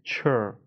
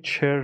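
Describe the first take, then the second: First: چر with a neutral vowel, as chur; correct 'chur' ending. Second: چر with a clear E, as cher; wrong 'cher' vowel. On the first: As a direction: say چر like the end of adventure. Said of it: "چر نیست". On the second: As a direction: mispronounce چر with a full E vowel. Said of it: "دوباره دقت کنید چر نیست". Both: Shown as a demonstration.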